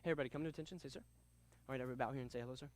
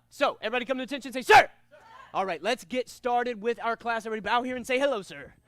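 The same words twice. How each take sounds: First: Low, soft monotone, no enthusiasm; dull, quiet demo of a boring teacher; unenthusiastic instructor. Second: Energetic class-opening call with a punched "Sir!"; rally the students to start class; lively, projected martial arts command; enthusiastic instructor. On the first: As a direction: mumble the class opening without any energy. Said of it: "I sounded like this right here". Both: Shown as a demonstration.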